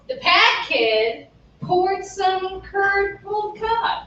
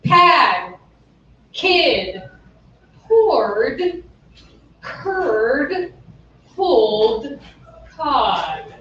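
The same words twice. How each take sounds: First: Slower, joined phrase. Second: Each word alone with long pauses; slow it right down, word by word. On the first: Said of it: "slowed down". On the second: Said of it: "slowed down, everybody". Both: Shown as a demonstration.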